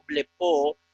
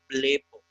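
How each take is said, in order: First: Blepo wrongly stressed on the last syllable, ble-PO; misplaced final stress. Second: Blepo stressed on BLE, short unstressed final o; stress on first syllable. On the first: Teacher shows students the mistake, blepo stressed on PO. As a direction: drag out and accent the final o of blepo. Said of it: "no blepo". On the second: Teacher corrects the mistake, blepo stressed on the first syllable. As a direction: hit the e of blepo, let the ending drop. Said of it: "sino blepo". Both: Shown as a demonstration.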